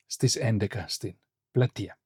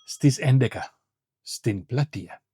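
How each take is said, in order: First: Said in the usual way. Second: Στις έντεκα, a pause, then στην πλατεία; teacher chunking Στις έντεκα / στην πλατεία for learners; split into chunks. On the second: Shown as a demonstration. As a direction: model it phrase by phrase with a break after έντεκα. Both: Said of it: "Say this in Greek".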